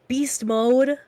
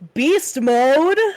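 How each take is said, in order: First: It is said flatly, with little energy. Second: It is said with much more energy.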